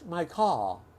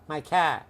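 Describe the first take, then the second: First: It is said in a British accent. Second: It is said in a Boston accent.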